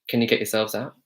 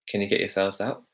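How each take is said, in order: No difference in how they are said.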